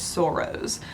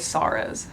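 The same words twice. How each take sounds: First: The word is said with a Canadian pronunciation. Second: The word is said with an American pronunciation. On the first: This is how the Canadian who recommended the book says it. "who is a Canadian, so she says sorrows" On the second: This is how the speaker's own community says it. "but we would say sorrows"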